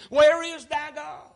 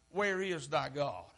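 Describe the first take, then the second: First: High, loud, drawn-out question; stretched, raised mocking demand; taunting challenge. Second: Low, soft, slow question; subdued, drawn-out taunt; hushed taunt. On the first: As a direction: call it out like a jeering crowd. Crowd's taunt voiced by preacher. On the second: Acted. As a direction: say it quietly, as an unspoken accusation. The taunt repeated low, as looks imply.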